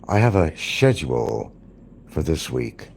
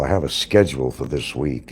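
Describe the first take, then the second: First: It is said in a British accent. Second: It is said in an American accent. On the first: "they will say" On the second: "we say"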